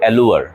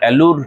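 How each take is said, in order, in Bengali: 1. শব্দটি টেনে বলা 'lu-ar' ধ্বনি দিয়ে শেষ হয়। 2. শব্দটি ছোট 'loor' ধ্বনি দিয়ে শেষ হয়। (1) "কিন্তু অ্যালুয়ার" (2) "তোমার অ্যালুর বলতে ইচ্ছে করবে"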